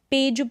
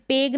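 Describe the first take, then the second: First: पेज, with g softened to j; final j sound in पेज; correct soft g. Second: पेग, closing on g as in go; wrong hard-g reading. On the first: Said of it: "पेज पढ़ेंगे". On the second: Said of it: "पेग नहीं पढ़ेंगे". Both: Shown as a demonstration.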